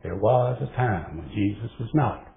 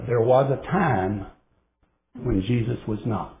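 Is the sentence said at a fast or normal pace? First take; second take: fast; normal. First: The sentence is said quickly and rhythmically. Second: The sentence is said at a normal pace.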